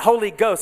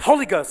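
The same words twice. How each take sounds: First: The two words are said separately. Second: The two words are run together as one. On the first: The speaker calls it wrong. "It's not Holy Ghost" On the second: The speaker calls it right. "it's Holy Ghost. It's one word"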